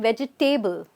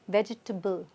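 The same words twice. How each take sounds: First: The ending is said as a full 'table'. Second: The ending is reduced, not a full 'table'. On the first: The speaker calls it wrong. "not vegetable, right? I know there's a table here" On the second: The speaker calls it right. "It's vegetable"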